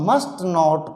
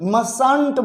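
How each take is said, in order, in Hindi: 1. यह t के साथ दो पूरे शब्दों में बोला जाता है। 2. यह एक शब्द में बोला जाता है, t साइलेंट है।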